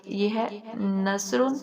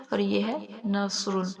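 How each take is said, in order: First: نثرن with a light, thin سین; thin seen in nasrun. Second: نثرن with a thick, heavy صاد; heavy saad in nasrun. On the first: Teacher showing the thin س in نثرن. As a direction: keep the s in نثرن fine and whistling. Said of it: "اس میں سین واضح ہونا چاہیے". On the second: Teacher showing the heavy ص in نثرن. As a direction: make the s in نثرن full and hard. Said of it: "اس میں صاد واضح ہونا چاہیے". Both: Shown as a demonstration.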